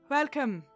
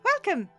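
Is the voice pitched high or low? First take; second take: low; high. First: The voice is pitched low. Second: The voice is pitched high. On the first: "I'll just do a lower Irish one" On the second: "we'll do the higher voice then"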